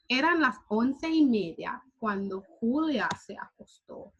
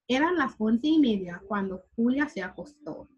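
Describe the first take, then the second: First: The sentence is read at a slow pace. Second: The sentence is read at a fast pace. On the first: "I'm going to read it a little slower now" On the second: "I also read it a little bit faster than I should"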